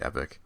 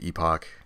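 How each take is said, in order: First: It is said with an American pronunciation. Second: It is said with a British pronunciation. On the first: "Americans say epic" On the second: "British people say epoch"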